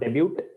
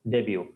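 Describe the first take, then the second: First: The final t sound is pronounced. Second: The final t sound is silent. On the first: The speaker calls it wrong. "The pronunciation is not debut" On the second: The speaker calls it right. "This is similar to buffet"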